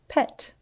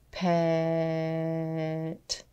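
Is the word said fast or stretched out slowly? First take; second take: fast; stretched. First: The word is said quickly as one whole word. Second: The word is stretched out slowly, sound by sound. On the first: "Say it fast like a word" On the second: "Tap and stretch one more time"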